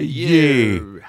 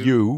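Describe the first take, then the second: First: The word is said with a Scottish pronunciation. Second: The word is said with a standard pronunciation. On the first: The speaker calls it right. "maar you" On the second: The speaker calls it wrong. "Niet you"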